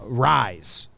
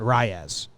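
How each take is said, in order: First: The name ends sounding like 'rise'. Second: The name ends sounding like 'ray-es'. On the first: The speaker calls it right. "It's uh rise" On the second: The speaker calls it wrong. "not Reyes"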